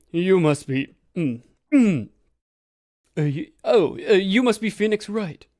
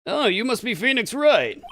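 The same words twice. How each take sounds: First: First stab at Acro's voice, louder; trying out a voice. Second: Higher-pitched attempt at Acro's voice; trying out a voice. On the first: Gamer hunting for Acro's voice, trying it out. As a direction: try on a voice for the character. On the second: Gamer testing another voice for Acro, trying it out. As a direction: pitch the trial voice up. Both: Shown as a demonstration. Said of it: "I gotta have a voice for you".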